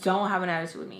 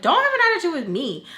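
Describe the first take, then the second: First: Said in the usual way. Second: High, loud, fast retort; indignant talking back. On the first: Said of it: "I really was like". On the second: Retold or imitated. Teen talking back to stepfather on the phone, indignant. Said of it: "and I tell him".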